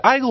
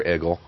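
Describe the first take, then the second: First: Igle with first syllable like "eye"; long-I pronunciation. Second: Igle with first syllable like "egg"; short-E pronunciation. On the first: Co-host unsure of a guest's surname, sounding out Igle as EYE-gull. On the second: Co-host offering the other reading of Igle, as EGG-ul. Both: Shown as a demonstration. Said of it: "is it Igle or Igle?".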